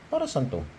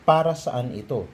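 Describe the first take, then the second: First: The last word is shortened to 'to'. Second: The last word is said in full as 'ito'. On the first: This is casual everyday speech. "sa colloquial or everyday conversation" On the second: This is the formal written form. "Sa formal na pagkakasulat"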